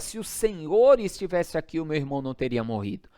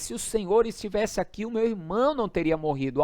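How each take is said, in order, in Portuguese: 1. É dito num tom exigente, de censura. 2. É dito num tom choroso, suplicante. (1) "foi uma entonação de cobrança" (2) "foi uma declaração de súplica, de petição, com lágrimas"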